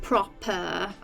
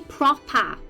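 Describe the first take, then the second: First: The final vowel is a posh 'er' sound. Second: The final vowel is a short open 'a' sound. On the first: This is how a posh person talks. "not proper; a proper posh person says E R" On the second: This is how the speaker naturally talks. "I say proper, I have an I uh, rather than an E R"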